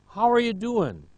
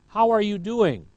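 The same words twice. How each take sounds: First: The words are shortened and run together. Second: Every word is said fully and clearly.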